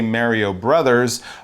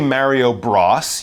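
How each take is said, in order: First: The second word is two syllables, 'brothers'. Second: The second word is one short syllable, 'bros'. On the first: The speaker calls it right. "You would say Mario Brothers" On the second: The speaker calls it wrong. "You wouldn't say Mario Bros"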